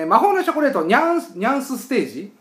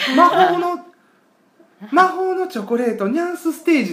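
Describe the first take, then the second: First: It is said in a standard Japanese accent. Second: It is said in a Kyoto dialect accent.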